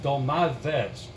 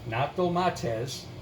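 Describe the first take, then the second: First: A soft th sound comes before the ending. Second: A hard t sound comes before the ending. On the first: The speaker calls it right. "as the Greek people pronounce it" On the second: The speaker calls it wrong.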